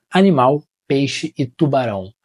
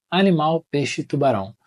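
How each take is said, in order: First: Words read slowly, tubarão weighted; dramatic reading. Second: Said in the usual way. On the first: Shown as a demonstration. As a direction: build up to "tubarão". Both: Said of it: "Eu até usei a entonação".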